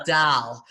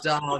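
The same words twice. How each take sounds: First: "doll" with the other vowel, as the mistaken name; rejected pronunciation of "doll", vowel set apart; contrasted wrong vowel. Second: "doll" with its own distinct Midwest vowel; first of two contrasted vowels in "doll". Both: Shown as a demonstration. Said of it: "better way of, like, distinguishing your vowels".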